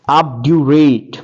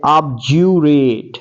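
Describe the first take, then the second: First: ऑब्ड्यूरेट with a clear retroflex d sound; first pronunciation. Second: ऑब्ज्यूरेट with a j sound in place of the d; j sound version. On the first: Teacher showing students the d pronunciation. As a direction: say ऑब्ड्यूरेट as ob-dyoo-ret with a hard d. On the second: Teacher showing students the j pronunciation. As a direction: say ऑब्ज्यूरेट as ob-jyoo-ret. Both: Shown as a demonstration. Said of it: "जे sound निकालते हैं".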